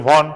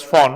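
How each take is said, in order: First: Von with an English v; spelling pronunciation. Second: Fon, the written V said as f; German pronunciation. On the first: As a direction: say von as spelt, starting with v. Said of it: "to remember the spelling, you must say von". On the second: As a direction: begin Fon with an f sound, as in German. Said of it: "V is pronounced as Fo". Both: Shown as a demonstration.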